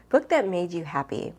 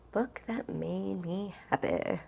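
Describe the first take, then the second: First: Said in the usual way. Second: Slow, softer, thinking it over; slow musing. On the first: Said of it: "reading the tag question". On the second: Real, not acted. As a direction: drag out "Book that made me happy" while pondering. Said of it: "repeating the question, thinking".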